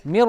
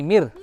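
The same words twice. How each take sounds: First: First मिर with a thick, dark r, like 'mi-ro'; faulty full-mouthed र in मिर; wrong heavy ra. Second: Second मिर with a light, fine final r; thin ra. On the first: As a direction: fatten the r closing मिर. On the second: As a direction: keep the r closing मिर unrounded. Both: Shown as a demonstration. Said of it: "मिर नहीं, मिर".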